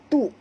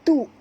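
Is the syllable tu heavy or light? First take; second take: light; light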